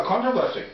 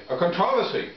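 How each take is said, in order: First: "controversy" stressed on the first syllable; stress on CON. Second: "controversy" stressed on the second syllable; stress on TROV. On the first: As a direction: say "controversy" as CON-tro-ver-sy. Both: Shown as a demonstration. Says word two ways.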